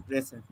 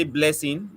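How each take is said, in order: First: "Listen" slurred and quiet, as a swallowed "Blessing"; "Listen" thrown away softly, consonants blurred; mumbled child's name. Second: Said in the usual way. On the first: Retold or imitated. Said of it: "do not pronounce the words articulately". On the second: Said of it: "they want to say blessing".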